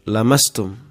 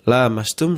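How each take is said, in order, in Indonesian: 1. Vokal pertama diucapkan pendek. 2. Vokal pertama diucapkan panjang. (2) "saling menyentuh"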